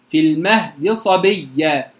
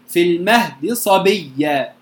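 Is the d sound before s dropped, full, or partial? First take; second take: partial; partial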